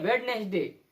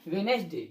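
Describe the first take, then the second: First: "वेडनेसडे" with the first D sounded, wed-nes-day; wrong pronunciation. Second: "वेडनेसडे" said wen-es-day, no first D; silent D. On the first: Teacher quoting how people say it, wrong pronunciation. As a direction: put a clear D before N in "वेडनेसडे". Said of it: "लोग बोलते हैं". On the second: Teacher correcting how people say it, silent D. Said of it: "क्या होता है?". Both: Shown as a demonstration.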